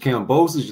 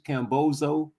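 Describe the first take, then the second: First: The name ends with a plain 'bosos' sound. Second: The name ends sounding like the word 'bozo'. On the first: The speaker calls it right. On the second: The speaker calls it wrong.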